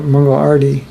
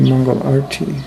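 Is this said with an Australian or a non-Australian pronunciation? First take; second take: Australian; non-Australian. First: It is said with an Australian pronunciation. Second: It is said with a non-Australian pronunciation. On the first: The speaker calls it wrong. "as you say in Australia" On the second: The speaker calls it right. "It's actually"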